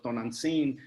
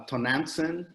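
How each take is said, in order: First: "Tonantzin" the Nahuatl way, open a, ending "seen"; native pronunciation. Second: "Tonantzin" anglicized, flat English a, "to-NAN-sen"; English pronunciation. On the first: Host giving the proper Mexican name after the English one, native pronunciation. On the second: Host showing how English speakers say the goddess's name, anglicized. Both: Shown as a demonstration. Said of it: "I think is how you would pronounce it in English".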